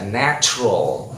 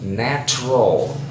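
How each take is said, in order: First: The middle sound is a plain t. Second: The middle sound is close to ch. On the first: It is the Indonesian way of saying it. "kalau bahasa Indonesia begitu dibaca natural" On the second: It is the English way of saying it. "Natural bunyinya C"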